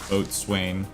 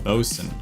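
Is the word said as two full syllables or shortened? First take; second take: two syllables; shortened. First: The word is said as written, boat-swain. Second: The word is shortened to sound like bosun. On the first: The speaker calls it wrong. "The first time I read it, I read it as boatswain" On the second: The speaker calls it right. "It's pronounced bosun"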